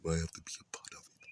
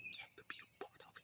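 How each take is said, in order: First: Said in the usual way. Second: Breathless whisper, dropped right down; hushed repeat under the breath. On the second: Shown as a demonstration. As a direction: whisper it as if to yourself.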